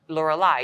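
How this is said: The name is pronounced the English way. "In English, you guys say Lorelei"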